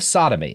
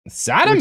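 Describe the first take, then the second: First: The word is read in a plain voice. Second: The word is said in a dramatic put-on voice. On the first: The speaker calls it wrong. "Which you kind of didn't do" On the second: The speaker calls it right. "Yeah, thank you. That's good"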